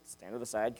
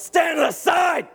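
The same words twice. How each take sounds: First: Much softer, low-key obedience; hushed, deadpan retelling; quiet compliance. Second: High, drawn-out command yell; full-force military order; drill instructor shout. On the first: Retold or imitated. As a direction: say it meekly, dropping right down. Meek recruits complying, set against shout. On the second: Acted. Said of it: "They would tell us".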